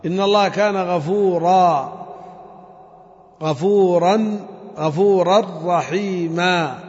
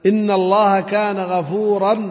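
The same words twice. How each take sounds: First: "غفورا" ended on a long a, slowly repeated; correct pausal stop. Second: Slow "غفورا" said with the wrong ending; wrong pausal stop. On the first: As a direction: show the right stop with a long a. (وقف صحيح على "غفورا" بألف ممدودة) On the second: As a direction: demonstrate the mistaken stop slowly. (وقف خاطئ على "غفورا" ببطء) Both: Shown as a demonstration. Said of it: "خطأ الوقف هكذا".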